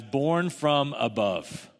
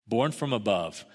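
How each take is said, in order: First: Slow deliberate reading. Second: Said in the usual way. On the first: Shown as a demonstration. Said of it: "It could also be translated as".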